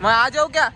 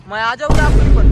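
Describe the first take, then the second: First: Said in the usual way. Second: Shouted teasing question, much louder; louder repeat of the teasing question; loud call. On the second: Real, not acted. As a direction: call it out loud across the crowd. Calls out the question again.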